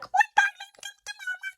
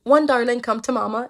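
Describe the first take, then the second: First: A squeaky, birdlike voice is used. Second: A lower voice like a mother is used.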